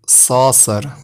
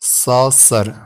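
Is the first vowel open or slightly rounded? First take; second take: slightly rounded; slightly rounded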